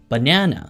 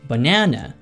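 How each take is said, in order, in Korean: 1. 미국식 억양으로 발음됩니다. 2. 미국식 억양으로 발음됩니다.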